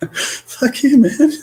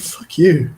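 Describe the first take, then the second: First: A very high squeal of a curse through laughter; laughing fuck you. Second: Higher, louder playful curse; mock fuck you. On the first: Retold or imitated. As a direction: curse again, cracking up. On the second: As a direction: swear at the cards in jest. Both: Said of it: "just like".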